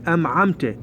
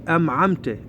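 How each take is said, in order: The two takes are said the same way.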